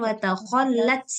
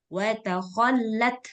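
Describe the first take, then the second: First: The final consonant is released as an s sound. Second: The final consonant is released as a breathy t. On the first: The speaker calls it wrong. "bukan watakhollat. Salah" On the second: The speaker calls it right. "Tetap huruf ta. Teh, tehnya yang keluar"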